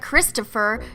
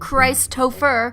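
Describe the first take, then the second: First: The first syllable has a short 'ih' vowel. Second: The first syllable has a long 'eye' vowel. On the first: The speaker calls it wrong. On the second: The speaker calls it right.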